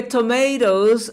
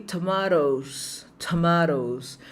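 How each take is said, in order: First: TOMATOES with "may" as the middle syllable; American "to-MAY-dohs" for "tomatoes"; pronúncia americana. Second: TOMATOES with "mah" as the middle syllable; British "to-MAH-tohs" for "tomatoes"; pronúncia britânica. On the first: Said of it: "a gente fala nos Estados Unidos". (tomatoes com "ei", à americana) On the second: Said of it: "na Inglaterra você vai ouvir". (tomatoes com "a" aberto, à britânica) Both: Shown as a demonstration.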